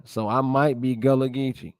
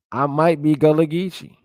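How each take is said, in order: First: Said in the usual way. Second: Louder and higher, amused and rising; half-joking, realizing something about himself; playful excited realization. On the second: Real, not acted. Vlogger jokes that he might be Gullah, excited.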